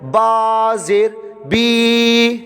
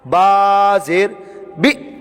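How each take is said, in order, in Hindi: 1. स्वर लंबा खींचकर बोला गया है। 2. अक्षर झटके के साथ काट दिया गया है। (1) "ये भी गलत हो गया, खींच रहे हैं" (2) "ये गलत है, ये झटका देकर पढ़ रहे हैं"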